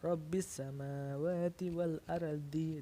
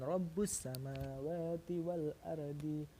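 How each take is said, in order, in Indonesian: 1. Kata pertama berakhir dengan vokal i. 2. Kata pertama berakhir dengan vokal u. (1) "Dapat dibaca Rabbis samawati wal ardi" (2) "dan Rabbus samawati wal ardi"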